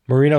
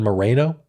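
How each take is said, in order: First: The name is said in a less ethnic way. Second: The name is said in a more ethnic way. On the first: "Moreno sounds less ethnic than Moreno" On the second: "than Moreno"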